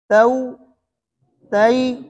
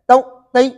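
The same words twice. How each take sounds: First: The vowel is smoothly and slightly lengthened. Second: The vowel is cut off with an abrupt jerk. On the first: The speaker calls it right. "मामूली सा मामूली सा खींच लिए ना" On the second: The speaker calls it wrong. "ये झटका है, ये गलत है"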